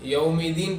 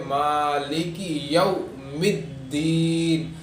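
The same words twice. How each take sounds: First: Quick یوم الدین, the d single and light; short, unstretched یوم الدین; wrong, without doubling. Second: Very slow مالک یوم الدین with doubled d; measured, elongated recitation of مالک یوم الدین; firm tashdeed. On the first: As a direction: read یوم الدین loosely without tashdeed. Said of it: "ہمیں اس طرح نہیں پڑھنا ہے". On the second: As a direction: lean on the double d in یوم الدین, long final vowel. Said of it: "شدت کے ساتھ پڑھنا چاہیے". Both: Shown as a demonstration.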